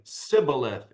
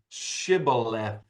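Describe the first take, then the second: First: The word begins with an s sound. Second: The word begins with an sh sound. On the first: The speaker calls it wrong. "They would say Sibboleth instead" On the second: The speaker calls it right. "when they couldn't say it right"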